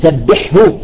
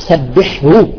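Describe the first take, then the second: Both takes have the same delivery.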